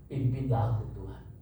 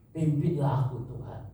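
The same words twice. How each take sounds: First: Said in the usual way. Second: Stronger plea. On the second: Acted. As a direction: lean harder into the begging. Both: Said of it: "Dia bilang".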